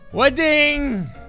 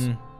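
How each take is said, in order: First: It is said with lots of enthusiasm. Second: It is said flatly, without enthusiasm.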